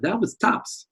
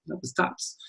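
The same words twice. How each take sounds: First: Higher bright take. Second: Much softer, almost under the breath; soft repeat. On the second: Teacher repeats his praise of the star, much softer. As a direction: drop the voice for That was tops. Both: Shown as a demonstration.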